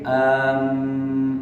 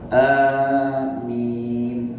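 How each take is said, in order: First: The m is doubled with a short first vowel. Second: The first vowel is long with a single m. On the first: The speaker calls it wrong. "Tidak pakai tasdid am, itu salah" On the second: The speaker calls it right. "ini ada tanda panjang"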